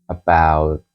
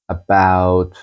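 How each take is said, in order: No difference in how they are said.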